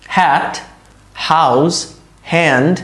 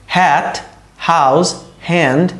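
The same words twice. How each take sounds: The two takes are said the same way.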